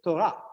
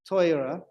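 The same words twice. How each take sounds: First: The word is said with an Israeli accent. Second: The word is said with an Ashkenazi accent. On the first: "in Israel, it'd say Torah"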